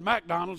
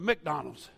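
First: It is said in the speaker's out-of-town accent. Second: It is said in the local accent. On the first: It marks the speaker as not from the area. "I said McDonald's" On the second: It is how people in the area say it. "instead of McDonald's"

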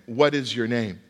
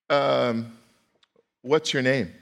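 First: The question is asked in a plain, serious tone. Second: The question is asked in a playful, teasing tone. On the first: The question is meant sincerely. The speaker calls it right. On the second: The question is mocked rather than meant. The speaker calls it wrong.

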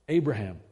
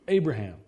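No difference in how they are said.

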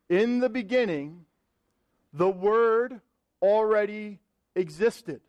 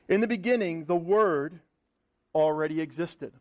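First: It is read very slowly. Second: It is read at a normal speed.

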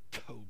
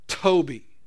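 First: It is said weakly and breathlessly. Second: It is said louder and stronger.

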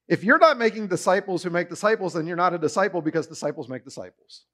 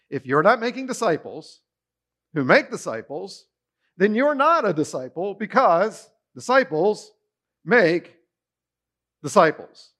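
First: The sentence is said quickly. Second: The sentence is said slowly.

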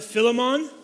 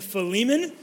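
First: It is said with a Kenyan pronunciation. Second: It is said in the speaker's usual pronunciation.

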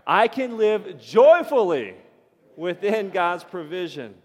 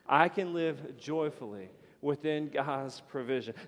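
First: It is said with more energy. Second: It is said with less energy.

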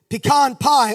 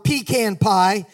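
First: Pecan is said with a general, non-regional pronunciation. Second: Pecan is said with a South Georgia pronunciation.

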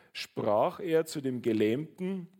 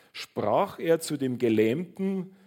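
The two takes are said the same way.

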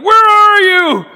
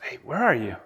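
First: It is said angrily and aggressively. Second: It is said gently and kindly.

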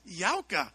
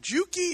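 First: The name begins with a Y sound. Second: The name begins with a J sound. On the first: The speaker calls it right. "Yauka is correct" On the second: The speaker calls it wrong. "we picked him up at the airport and we said, is your name Juki?"

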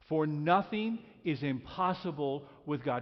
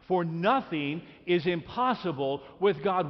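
First: It is read in a plain, even manner. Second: It is read with strong, emphatic conviction. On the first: "Read that one more time" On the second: "let's read it like we really mean it"

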